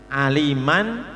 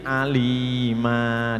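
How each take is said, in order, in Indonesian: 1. Kata ini berakhir dengan a pendek dan n. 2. Kata ini berakhir dengan vokal a panjang.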